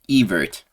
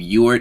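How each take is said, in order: First: The name begins with a V sound. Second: The name begins with a W sound. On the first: The speaker calls it right. "The W is pronounced like a V" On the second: The speaker calls it wrong. "I was calling him Ewert in the past"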